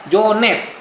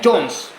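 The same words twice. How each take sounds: First: It is said with an Indonesian accent. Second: It is said with an English accent. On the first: "Orang Indonesia bilangnya apa?" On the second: "orang Inggris bilangnya"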